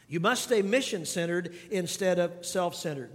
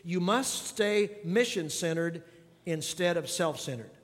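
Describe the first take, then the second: First: Said in the usual way. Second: "must" leaned on, phrase taken slowly; slow and deliberate, press "must"; stress on must, slow. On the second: Shown as a demonstration. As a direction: hammer home "must" so they write it down. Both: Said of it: "I want you to think about this".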